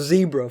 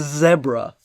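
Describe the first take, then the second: First: It is said with an American pronunciation. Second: It is said with a British pronunciation.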